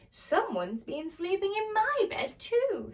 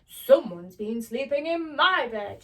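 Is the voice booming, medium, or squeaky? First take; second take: medium; booming. First: It is said in a medium-sized voice. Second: It is said in a big, booming voice.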